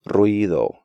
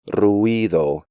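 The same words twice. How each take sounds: First: The u and i form one syllable. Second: The u and i form two syllables. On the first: The speaker calls it right. "when they should be pronounced more like" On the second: The speaker calls it wrong. "break these diphthongs up"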